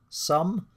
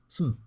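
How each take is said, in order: First: The word is stressed with a full vowel. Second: The word is unstressed with a reduced vowel. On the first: "when it's stressed" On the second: "when it's unstressed"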